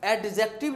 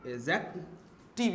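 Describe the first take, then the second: First: The word is said with a d sound. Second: The word is said without a d sound. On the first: The speaker calls it wrong. "एडजेक्टिव नहीं है" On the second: The speaker calls it right. "एजेक्टिव use है, डी इसमें silent है"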